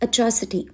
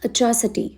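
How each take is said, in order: The two takes are said the same way.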